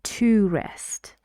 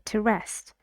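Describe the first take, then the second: First: 'To' is stressed and said with a full vowel. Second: 'To' is unstressed, quick and reduced. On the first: "When to is stressed, we say to rest" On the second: "But when it's not, we say to rest"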